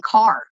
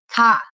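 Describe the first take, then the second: First: Said in the usual way. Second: Loud "kah" with the R dropped, East Coast style; imitated East Coast accent. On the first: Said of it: "you were saying car". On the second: Showing friend how they say things, imitated East Coast accent. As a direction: punch out "car" as an East Coaster would, R-less. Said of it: "the way you say things".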